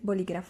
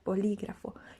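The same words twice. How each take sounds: First: The word is said fast without extra emphasis. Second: The accented syllable lí gets clear extra emphasis. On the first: The speaker calls it wrong. "You don't say bolígrafo like fast" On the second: The speaker calls it right. "you say like bolígrafo. You put a little bit of emphasis on the letter that has uh, like an accent"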